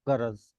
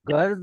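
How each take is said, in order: First: A short vowel separates the r and the j. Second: The r and j run together without a vowel. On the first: "proper उसको pause दे के बोलना है" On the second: "गर्ज हम बोल सकते थे अगर रे पे जबर ना हो"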